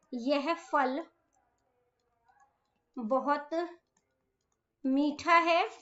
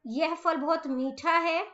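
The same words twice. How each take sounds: First: Slow dictation. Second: Said in the usual way. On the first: Shown as a demonstration. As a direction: pause between words for writing. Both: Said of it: "next है फल".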